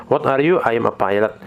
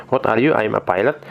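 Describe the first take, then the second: No difference in how they are said.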